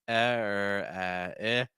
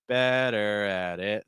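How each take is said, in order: First: Only the vowel sounds are said, no consonants. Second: The full phrase is said with its consonants. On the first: "Just do the vowels" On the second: "And then add the consonants back"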